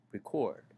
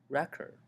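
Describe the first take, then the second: First: "record" as re-CORD, second syllable strong and falling; "record" said as the verb, CORD strong; stress on second syllable. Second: "record" as REC-ord, first syllable high and loud; "record" said as the noun, REC strong; stress on first syllable. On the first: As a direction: lean on the end of "record". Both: Shown as a demonstration. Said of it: "record and record".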